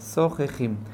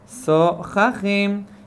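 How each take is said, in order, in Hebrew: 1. השווא באמצע נשמע כמו 'e' קצר. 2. השווא באמצע נשמע כמו 'a' קצר. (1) "כמו שוונה רגיל, כלומר דומה לצרה" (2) "דומה לחטף פתח"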